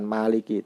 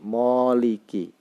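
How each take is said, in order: First: The first vowel is an open 'a' sound. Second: The first vowel is a rounded 'o' sound. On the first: This is the Arabic reading. "bukan Maliki" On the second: This is the Persian reading. "menurut bahasa Persia itu bacanya ... Moliki"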